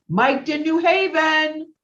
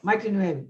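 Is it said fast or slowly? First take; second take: slowly; fast. First: It is said slowly and clearly. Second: It is said fast and blurred.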